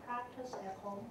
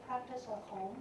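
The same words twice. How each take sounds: The two takes are said the same way.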